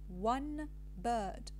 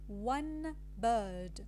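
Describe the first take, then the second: First: The word one ends with an n sound. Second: The word one ends with an n sound.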